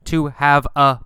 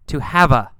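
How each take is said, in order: First: Have and a are said as separate words. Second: Have and a run together as one unit. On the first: The speaker calls it wrong. "We don't say to have a blast" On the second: The speaker calls it right. "have and a go together"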